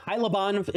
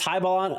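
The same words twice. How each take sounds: First: Hylaban with l before b; corrected pronunciation. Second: Hybalon with b before l; mispronounced. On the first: Streamer fixing a tricky card name, corrected pronunciation. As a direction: land on Hylaban, l sound first. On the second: Streamer reading a tricky card name, mispronounced. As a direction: stumble into saying Hybalon, syllables swapped. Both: Real, not acted. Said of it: "I keep saying it wrong".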